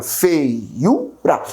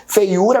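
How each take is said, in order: First: "Feiura" in separate, drawn-out syllables; split into syllables. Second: Said in the usual way. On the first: Shown as a demonstration. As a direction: break "Feiura" slowly into its syllables. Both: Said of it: "Como é que eu separo feiura?".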